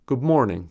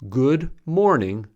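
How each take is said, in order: First: 'Good' ends with a b sound. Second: 'Good' ends with a d sound.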